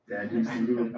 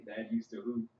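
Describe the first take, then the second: First: "hoop" hit louder with pride; "Dad used to hoop" said louder, leaning on "hoop"; emphatic boast. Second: Said in the usual way. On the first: Shown as a demonstration. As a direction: punch "hoop" to insist.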